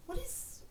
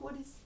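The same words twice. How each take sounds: First: Pitched way up, rising at the end; a high, questioning rise on "is"; imitating her odd echoey what. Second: Said in the usual way. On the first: Ziva's puzzled line, copied with a high rising "is". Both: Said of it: "couldn't take the echo out of her voice".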